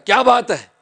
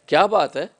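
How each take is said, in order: First: It is said in a scolding tone. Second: It is said as a question.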